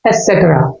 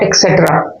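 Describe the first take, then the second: First: The word begins with an 'es' sound. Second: The word begins with an 'ek' sound. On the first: The speaker calls it right. "इसको एसेट्रा pronunciation किया जाता है" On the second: The speaker calls it wrong. "Not एक्सेट्रा"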